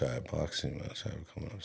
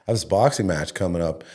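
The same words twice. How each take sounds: First: Mumbles it fast and much softer, hoping she won't catch it; nervous kid mumbling to his mom; mumbled under breath. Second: Said in the usual way. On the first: Retold or imitated. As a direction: slip it out fast and quiet. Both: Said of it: "What are you talking about?".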